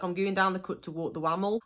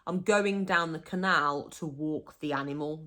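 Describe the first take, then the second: First: Quick, broad local "wammel"; Black Country example. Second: Said in the usual way. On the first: Shown as a demonstration. Walking the dog by the canal, broad Black Country. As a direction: rattle it off in dialect. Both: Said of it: "So, like".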